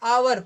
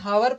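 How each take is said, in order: First: The word begins with a vowel sound. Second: The word begins with an h sound. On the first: The speaker calls it right. "इसको हम आवर पढ़ते हैं" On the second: The speaker calls it wrong. "हावर पढ़ते हैं क्या, नहीं"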